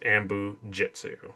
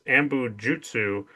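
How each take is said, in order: First: The last word is said as 'jitsu'. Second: The last word is said as 'jutsu'. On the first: This is how the characters say it. "pronounce it as Ambu Jitsu" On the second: This is how the script writes it. "written in the script as Ambu Jutsu"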